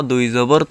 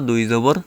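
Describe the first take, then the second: No difference in how they are said.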